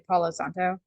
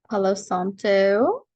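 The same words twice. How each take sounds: First: The name is said in a plain, ordinary way. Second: The name is said in a playful, exaggerated way. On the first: The speaker calls it wrong. "You're not allowed to just say Palo Santo" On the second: The speaker calls it right. "you have to say it like that"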